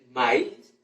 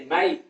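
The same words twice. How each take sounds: First: It is said in standard Spanish. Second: It is said in a Llanero accent. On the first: "en vez de decir maíz" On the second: "dice maíz"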